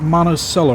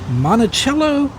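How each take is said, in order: First: The name is said the local way. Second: The name is said the usual outsider way. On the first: This is how residents of the town say it. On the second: This is how people from elsewhere say it.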